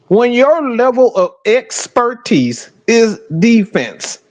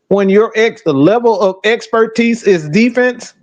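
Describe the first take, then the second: First: It is said slowly and deliberately. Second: It is said at normal speed.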